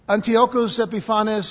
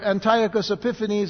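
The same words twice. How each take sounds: First: The name is given a non-English pronunciation. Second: The name is given an English pronunciation.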